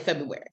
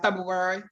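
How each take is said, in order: First: It is said quickly and casually, without care. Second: It is said slowly and carefully, each sound articulated. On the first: It is the everyday, unthinking way of saying it. "if I'm just saying February, I'll say February" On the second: It is the deliberate way of saying it when asked. "if somebody says how do you pronounce it"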